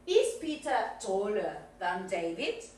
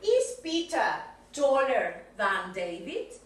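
First: Said in the usual way. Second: Slow model question. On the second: Shown as a demonstration. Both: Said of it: "quiero que me hagas una question".

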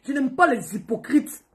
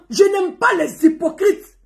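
First: Said in the usual way. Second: "Je n'aime pas les hypocrites" said higher, louder, slowly, stress on pas; emphatic repeat. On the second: Real, not acted. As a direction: hammer "pas" home, slow and loud. Repeats line, slower and louder.

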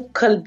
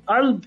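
First: "kalb" with a firm, distinct k; "kalb" opened on a clean k; clearly pronounced k. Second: "alb" begun with a catch in the throat, no k; "alb" with its q reduced to a throat catch; throaty Arabic q. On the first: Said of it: "você tem que falar bem o kalb". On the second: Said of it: "a outra letra chamada kaf". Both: Shown as a demonstration.

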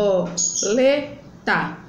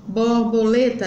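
First: "borboleta" slowly split into bor, bo, le, ta; four separate slow beats on "borboleta"; syllable by syllable. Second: Said in the usual way. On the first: Shown as a demonstration. Teacher separating the word, "borboleta" slowly split apart. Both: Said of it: "eu vou separar".

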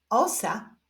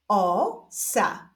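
First: Said in the usual way. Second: Stretched first syllable, pause, then second; drawn-out, divided syllables; syllable reading. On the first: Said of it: "połączenia tych dwóch sylab wyjdzie nam wyraz". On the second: Shown as a demonstration. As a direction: read it slowly as two separate syllables. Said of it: "doczytujemy sylabę różową".

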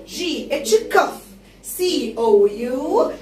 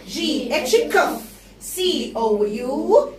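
No difference in how they are said.

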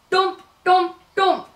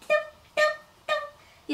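First: Heavy stomping steps. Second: Much higher and softer tiny steps; tiny cub steps. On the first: Big bear stomps upstairs. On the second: Baby bear climbs the stairs, tiny soft patter. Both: A narrator's reading.

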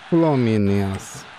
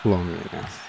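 First: Slow, stretched Fluminense; drawn out. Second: Said in the usual way. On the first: Shown as a demonstration. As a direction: drag out Fluminense with respect. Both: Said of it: "Fluminense é Fluminense".

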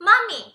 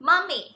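First: "mommy" pitched high and lilting; high sing-song demo. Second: Said in the usual way. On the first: Shown as a demonstration. Teacher coos "mommy" to parents, high and lilting. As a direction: coo "mommy" up high like to a baby. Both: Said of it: "หรือเราจะใช้คำว่า".

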